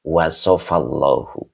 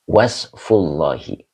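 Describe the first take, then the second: First: The first word is longer: wasafa, ending in -llahu. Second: The first word is short: wasfu, ending in -llahi. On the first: It is a verb: God described. "kalau dibacanya fi'il madi" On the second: It is a noun phrase: the description of God. "Kalau kita dibacanya idofa"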